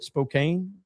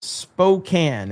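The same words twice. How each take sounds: First: Spokane with a long A, spo-KANE, as a question; unsure pronunciation. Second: Spokane with a short A, spo-KAN; corrected pronunciation. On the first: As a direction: say "Spokane" ending like "cane", softly asking. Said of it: "Is that how you say it?". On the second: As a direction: say "Spokane" ending like "can", falling at the end. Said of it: "Is that it?". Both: Real, not acted.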